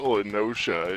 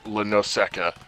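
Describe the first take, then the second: First: The middle is said with an 'sh' sound. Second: The middle is said with an 'sk' sound. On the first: This is how the speaker says it. "I say it Lenosha" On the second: Someone else said it this way. "he kept saying it Lenoseka"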